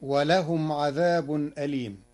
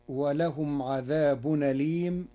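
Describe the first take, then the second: First: Said in the usual way. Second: عذاب أليم joined as adhabunalim, hamza dropped; Warsh reading. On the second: Shown as a demonstration. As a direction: move the hamza's vowel onto the nun in عذاب أليم. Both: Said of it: "بنقل حركة الهمز إلى الساكن".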